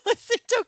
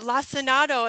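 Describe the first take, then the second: First: The word is said with three syllables. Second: The word is said with four syllables. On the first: The speaker calls it wrong. "in my head I always called it Lacinto kale" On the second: The speaker calls it right. "she's calling it lacinato, ... she's correct"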